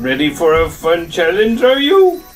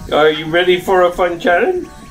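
First: It is said in an imitation of Yoda. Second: It is said in his normal voice.

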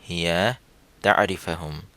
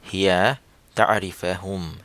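Both takes have the same delivery.

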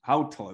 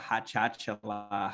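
First: The name is said in its native form. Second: The name is said in a mangled form. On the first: The speaker calls it right. "they got it right" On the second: The speaker calls it wrong. "Just the name pronunciation was unknown"

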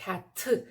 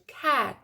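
First: The final t is released with a puff of air. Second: The final t is held back and barely heard. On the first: The speaker calls it wrong. "нейтіви не кажуть «cat»" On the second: The speaker calls it right. "вони кажуть «cat»"

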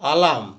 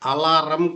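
First: The word has no r sound. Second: The word has an r sound. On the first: The speaker calls it right. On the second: The speaker calls it wrong.

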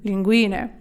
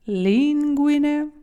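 First: The stress falls on the second i. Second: The stress falls on the first i. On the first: It names a kind of pasta. "Наголос на і. На ту другу" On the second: It names the groin. "Пах"

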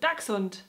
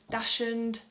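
First: It is said with a German-style pronunciation. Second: It is said with an English-style pronunciation. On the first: The speaker calls it right. "if you're trying to be very German about it" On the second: The speaker calls it wrong. "it's probably the most common ones I hear"

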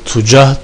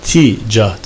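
First: The first vowel is u. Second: The first vowel is i. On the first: "zamme ile" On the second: "este ile"

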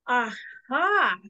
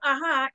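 First: There is a short pause between ah and ha. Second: It is said smoothly with no break.

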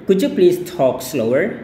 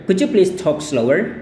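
No difference in how they are said.

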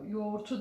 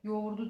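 First: The consonant before the last vowel is a T. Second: The consonant before the last vowel is a D. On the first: The speaker calls it wrong. "yoğurtu değil de" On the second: The speaker calls it right. "yoğurdu diye okuruz"

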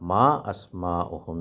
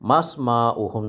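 First: The glottal stop before 'asma' is clearly pronounced. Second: The glottal stop is dropped, linking 'ma' to 'sma'. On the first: The speaker calls it right. "മാ അസ്മാ ഉഹും എന്നാ പറയാം" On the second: The speaker calls it wrong. "മസ്മാ ഉഹും എന്നല്ല പറയാം"

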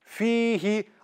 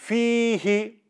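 No difference in how they are said.

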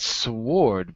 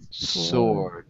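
First: A W sound is pronounced after the S. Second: No W sound is pronounced after the S. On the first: The speaker calls it wrong. "We don't say the W. It's not sword" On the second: The speaker calls it right. "but sword"

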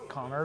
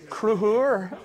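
First: The name is said as plain Connor. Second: The name is said as Kruhur. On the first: This is the version the family uses. "my mum and dad just call me Connor" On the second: This is the Southern Irish way of saying it. "she said it in the Southern Irish way"

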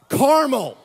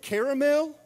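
First: It is said in the West Virginia way. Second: It is said in a non-West Virginia way. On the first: The speaker calls it right. "How do we say this in West Virginia" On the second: The speaker calls it wrong. "if you said caramel, I hate to let you know, but you said that wrong"

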